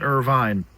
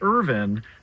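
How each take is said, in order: First: Irvine is said the tourist way. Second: Irvine is said the local way. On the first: The speaker is an outsider to the area. The speaker calls it wrong. "not Irvine" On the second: The speaker knows the real local name. The speaker calls it right. "Say Irvine"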